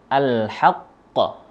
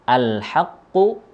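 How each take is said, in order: First: The doubled q is pressed strongly at the end. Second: The doubled q is pressed lightly, flowing on. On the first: The reading stops here. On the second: The reading continues without stopping.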